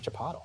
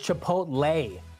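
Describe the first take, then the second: First: The word ends without a 'lay' sound. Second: The word ends with a 'lay' sound. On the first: The speaker calls it right. "There's no L A Y in Chipotle" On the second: The speaker calls it wrong. "What is Chipotle? That's not a thing, bro"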